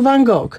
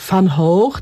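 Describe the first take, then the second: First: It is pronounced the Polish way. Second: It is pronounced the Dutch way. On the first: "A my mówimy po prostu" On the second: "Holendrzy mówią"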